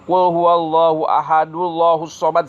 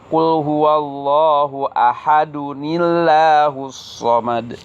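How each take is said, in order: First: Ahadu runs straight into llah with no ni. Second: An extra ni links ahadu to llah. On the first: The speaker calls it wrong. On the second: The speaker calls it right. "tapi Qul huwallahu ahadunillahus somad"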